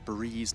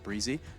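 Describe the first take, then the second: First: The name is said as one syllable. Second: The name ends with an extra 'ee' syllable. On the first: The speaker calls it right. "Breeze is the correct pronunciation" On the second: The speaker calls it wrong. "It's not Breezy"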